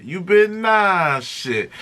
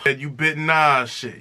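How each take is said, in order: First: You bit Nas shit dragged out slowly with weight on bit; slow accusing stress on bit; slow, weighted repeat. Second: Said in the usual way. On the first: Shown as a demonstration. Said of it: "And you bit [name] shit".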